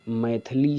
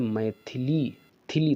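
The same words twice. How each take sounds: First: मैथिली squeezed to maithlee; wrong form. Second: मैथिली with the middle थि sounded; correct form. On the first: Teacher citing a misspelt name, मैथिली as maithlee. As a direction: drop the middle i in मैथिली. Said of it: "मैथिली Sharan नहीं होता है". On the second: Teacher correcting the name, मैथिली with clear थि. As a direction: give मैथिली its short i after th, then repeat थिली. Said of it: "था के ऊपर रा लगता है". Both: Shown as a demonstration.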